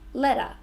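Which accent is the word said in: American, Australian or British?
Australian. The T sounds like D with no R sound. "we changed the T to a D, but we don't say the R"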